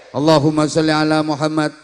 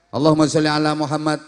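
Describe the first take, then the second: No difference in how they are said.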